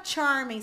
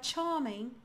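First: "charming" with the r pronounced; R sounded. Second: "charming" with a long vowel and no r; British silent R. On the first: Teacher showing what not to say, "charming" with r sounded. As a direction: say "charming" American-style, r before the m. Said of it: "Você não vai falar charming". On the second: Teacher showing the British way, "charming" with r dropped. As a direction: say "charming" as "chah-ming". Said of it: "você vai falar charming". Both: Shown as a demonstration.

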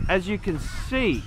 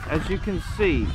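The two takes are said the same way.

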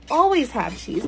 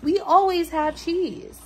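First: Said in the usual way. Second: "always" higher and stretched, slower; stress on always. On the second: Shown as a demonstration. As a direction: lean hard on "always".

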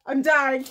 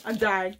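First: Excited. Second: Said in the usual way. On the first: Real, not acted. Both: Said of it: "I'm so excited".

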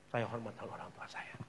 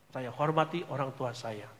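First: Whispered "saya hormati orang tua saya". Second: Said in the usual way. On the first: Shown as a demonstration. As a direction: breathe the words, no voice. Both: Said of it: "repeated statement".

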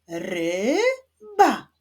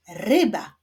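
First: "ryba" split as RY... BA, first syllable drawn out and rising; higher, measured "ry — ba" with a clear gap. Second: Said in the usual way. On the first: Shown as a demonstration. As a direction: sound out "ryba" slowly in two separate beats. Solving rebus syllable by syllable.

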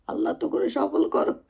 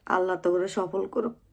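First: Thin, very high repeat of the wish; put-on high little voice; high-voiced blessing. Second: Said in the usual way. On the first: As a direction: lift the whole blessing far above your usual pitch.

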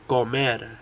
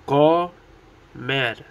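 First: Said in the usual way. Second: Comer broken into CO, pause, MER; split into syllables. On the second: Shown as a demonstration. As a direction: say Comer one syllable at a time. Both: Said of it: "Two syllables".

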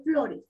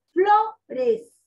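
First: Said in the usual way. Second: "flores" split in two with a high, strong first beat, FLO-res; stress on FLO. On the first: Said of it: "En el caso de flores". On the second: Shown as a demonstration. Teacher showing the tonic syllable, "flores" stressed on FLO. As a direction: punch "flo" high, then add "res" separately. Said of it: "Flo, esa es la sílaba que tiene mayor fuerza".

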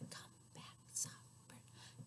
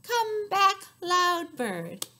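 First: Hushed whisper. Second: High, loud call. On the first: Finger rhyme for a child, whispering the soft bird. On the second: Finger rhyme for a child, calling the loud bird loudly. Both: Shown as a demonstration.

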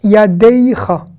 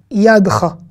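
First: YADEICHA slow, with a drawn "dey" in the middle; pronounced yud. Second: YADCHA short, yad straight into cha; singular, silent e. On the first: Teacher marking the plural, yud clearly pronounced. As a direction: sound the glide in "Yadeicha": ya-dey-cha. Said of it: "on prononce le yud". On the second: Teacher contrasting the singular, middle e silent. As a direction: say "yadcha" with no vowel after the d. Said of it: "C'est pas la même voyelle". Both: Shown as a demonstration.

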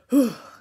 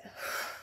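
First: Loud, high sigh falling away; sigh with sound. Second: Soft voiceless release of breath; breathy sigh out. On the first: Coach offering a noisier option, sigh with sound. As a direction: let voice ride out on the sigh. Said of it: "letting out the sound sigh". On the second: Coach showing the class the release, breathy sigh out. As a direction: let the breath fall out with no voice. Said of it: "And then let it". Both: Shown as a demonstration.

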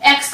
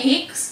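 First: Said in the usual way. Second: एक्स said "eeks"; एक्स as "eeks", not "ex"; French letter X. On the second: Shown as a demonstration. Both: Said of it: "एक्स को कहते हैं".

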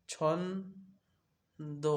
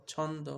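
First: ছন্দ stretched very slowly into two beats; ছন্দ said very slowly as two separate parts; split into syllables. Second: Said in the usual way. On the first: Shown as a demonstration. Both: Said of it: "দুটি দল".

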